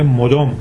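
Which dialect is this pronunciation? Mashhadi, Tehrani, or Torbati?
Mashhadi. It is said with a Mashhad pronunciation. "مشهدی میگه"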